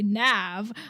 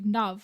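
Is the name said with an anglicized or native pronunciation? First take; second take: anglicized; native. First: The name is said with an English-style pronunciation. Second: The name is said with its native pronunciation. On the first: The speaker calls it wrong. "the anglicized version version of my name" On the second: The speaker calls it right. "the actual pronunciation of my name"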